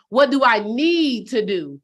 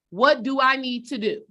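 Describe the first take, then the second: First: Slow, leaning hard on "need" against "want"; stress on need. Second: Said in the usual way. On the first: Shown as a demonstration. Coach telling viewers what they need, slow, stressing "need". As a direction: hit "need" and let it fall. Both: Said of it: "Not what do I want to do".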